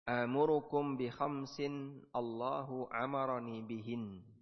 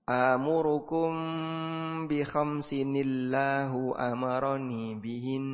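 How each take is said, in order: First: Khamsin and Allahu are said as separate words. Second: Khamsin links into Allahu with a ni sound. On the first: It is read as ordinary Arabic text. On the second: It applies Quranic recitation rules to the text.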